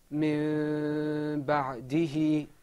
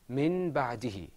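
First: The first word ends in an m sound. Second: The first word ends in a clear n sound. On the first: "Now let's pronounce that as it is in the Qur'an" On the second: "This example is usually pronounced min ba'dihi"

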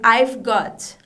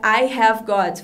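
First: The word have is contracted onto I. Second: The word have is said in full. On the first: "Você também pode dizer I've got" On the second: "do outro jeito que é muito longo"

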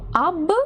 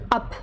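First: The word ends in a voiced b sound. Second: The word ends in a voiceless p sound. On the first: The speaker calls it wrong. "було слово «аб»" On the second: The speaker calls it right. "вимовляється воно як «ап»"

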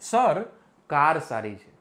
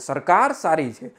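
First: A short pause splits the first word in two. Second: The first word is said without any break. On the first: Sir, the car is good. "જંચર મૂકી દઉં એટલે અહીંયા વચ્ચે ખાલી space" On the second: The government is good. "ગવર્મેન્ટની વાત થાય છે"

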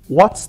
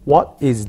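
First: The two words are joined into one syllable. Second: The two words are said separately and distinctly. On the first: "what's diye kısaltıyoruz" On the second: "ayrı ayrı tane tane konuşmak yerine"

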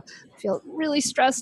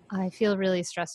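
First: It is said in a lively, expressive voice. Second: It is said in a flat, monotone voice. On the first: The speaker calls it right. "show it through ... the way you talk" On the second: The speaker calls it wrong. "you don't want to be monotone"

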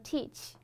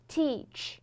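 First: The final sound is like Mandarin qi. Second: The final sound is English ch with rounded lips. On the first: The speaker calls it wrong. "千万不要发成中文当中的七，比如说teach, teach, teach，非常的难听" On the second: The speaker calls it right. "所以说一定要嘟起来"

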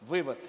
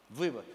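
Both takes have the same delivery.

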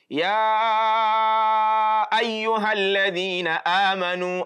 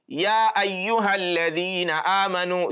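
First: The stretched vowel is held for a long time. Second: The stretched vowel is held only briefly.

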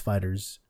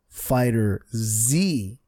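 First: The ending is said as a plain s sound. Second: The ending is said as a separate letter Z. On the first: The speaker calls it right. "No, it's Fighters" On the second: The speaker calls it wrong. "I've been saying it wrong. I thought it was Dragon Ball Fighter Z"

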